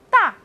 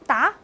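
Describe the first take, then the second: First: The syllable is said with a sharp falling tone. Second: The syllable is said with a rising tone. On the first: It means big. "四声大" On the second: It means to answer. "二声答"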